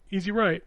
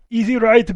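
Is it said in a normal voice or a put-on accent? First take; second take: normal; put-on. First: It is said in the speaker's normal voice. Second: It is said in a heavy put-on accent. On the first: A typical rally navigator gives the call. "It's like easy left" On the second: A celebrity-voiced navigator gives the call. "This motherfucker is Arnold Schwarzenegger"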